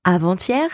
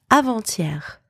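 First: Avant-hier said as a-van-TYEH, rising end; Avant-hier, clear model take, rising; pronunciation drill. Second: Avant-hier repeated as a-van-TYEHR, falling end; Avant-hier, second model take, falling; pronunciation drill. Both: Shown as a demonstration. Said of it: "repeat after me to practice your pronunciation".

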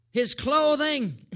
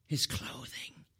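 First: High, loud, drawn-out answer; emphatic exclamation. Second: Low, slow, near whisper; hushed repeat. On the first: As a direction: announce it big and slowly. Answer to his question, exclaimed. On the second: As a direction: drop it right down to a hush. Same answer repeated hushed. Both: Real, not acted.

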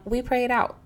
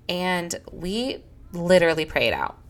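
First: We "pray" it out, pray said higher than the rest; stress on pray. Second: Said in the usual way. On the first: Shown as a demonstration. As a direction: pray lifted higher, the key word of the motto. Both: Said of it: "That's the thing in our home".

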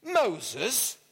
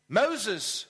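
First: MOSES as an incredulous rising question; mock-incredulous Moses, lifting at the end; amused disbelief. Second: Said in the usual way. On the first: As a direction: echo Moses back in disbelief, tune rising. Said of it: "the burglar laughed". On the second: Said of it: "replied the bird".

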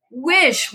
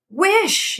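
First: Repeated command. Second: High forceful command; wife crying out strongly, voice jumping up. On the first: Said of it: "repeated his wife". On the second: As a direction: bark the order. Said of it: "he cried in a strong voice". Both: A narrator's reading.

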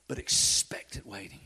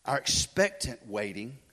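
First: Lower, softer whisper on "expectant waiting"; soft whispered emphasis on "expectant". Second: Said in the usual way. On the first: Shown as a demonstration. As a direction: hush it down to a whisper. Repeats phrase, now whispered.

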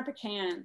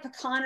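First: "pecan" as puh-KAN; second pecan pronunciation. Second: "pecan" as puh-KAHN; first pecan pronunciation. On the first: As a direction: say "pecan" so it ends like "can". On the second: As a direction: say "pecan" with an open ah in the last syllable. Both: Shown as a demonstration. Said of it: "It's like pecan or pecan".

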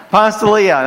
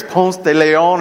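First: "Ponce de Leon" with a flat American PAHNS and lee-AHN; southern-style Ponce de Leon. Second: "Ponce de Leon" said POHNS teh leh-OHN, a Spanish guess; Spanish-style Ponce de Leon. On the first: Pastor owning his Southern take on "Ponce de Leon" to the congregation. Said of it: "that's gotta be in my southern accent". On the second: Pastor guessing the proper "Ponce de Leon" for French speakers. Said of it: "or something like that". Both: Shown as a demonstration.

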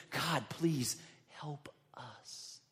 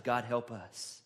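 First: Slow, soft whispered plea; whispered prayer. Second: Said in the usual way. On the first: Retold or imitated. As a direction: breathe the prayer out slowly.

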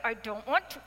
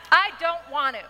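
First: Said in the usual way. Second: Put-on louder, laughing childish whine; whiny refusal. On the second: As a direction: stamp your foot like a sulking child, half laughing. Pouting refusal repeated louder.

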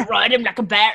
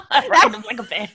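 First: Scottish accent attempt. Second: Laughing Scottish accent attempt. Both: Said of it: "I can't do a Scottish accent".

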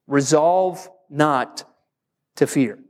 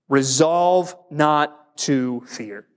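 First: Slow, weighty repeat of the point; slow emphatic. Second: Slow, deliberate dictation; slow emphatic. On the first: Pastor repeating the point for note-takers, slow and weighty. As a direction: lean on each word as you restate it. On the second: Pastor dictating a point to the congregation, slow and deliberate. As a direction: spell out the point slowly for note-taking. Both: Shown as a demonstration. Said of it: "let's write it down like this".

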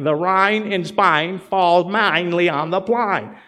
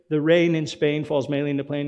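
First: Slow, carefully over-enunciated mock-proper delivery; imitating her practice line. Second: Said in the usual way. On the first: Preacher retelling My Fair Lady, slow mock-careful enunciation. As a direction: lightly act out the girl drilling her vowels. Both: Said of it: "and she's like".

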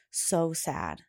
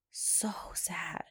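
First: Said in the usual way. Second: Whisper. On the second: Shown as a demonstration. Mom echoing her daughter's sadness, whispered. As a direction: repeat so sad in a soft unvoiced whisper.

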